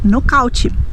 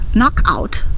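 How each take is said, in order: First: It is said with Brazilian Portuguese pronunciation. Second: It is said with English pronunciation. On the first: "nós vamos dizer" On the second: "Nós não vamos dizer"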